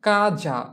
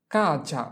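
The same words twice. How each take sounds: First: Kaza slowly, both syllables drawn out; slow model pronunciation. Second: Said in the usual way. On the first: Shown as a demonstration. Teacher models an example word for students, slow and drawn out. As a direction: stretch out Kaza for learners.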